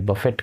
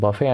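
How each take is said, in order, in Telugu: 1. చివర స్పష్టమైన t శబ్దం ఉంటుంది. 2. చివర t లేకుండా అచ్చుతో ముగుస్తుంది. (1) "బఫెట్ కాదు" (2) "సో బఫే అండి"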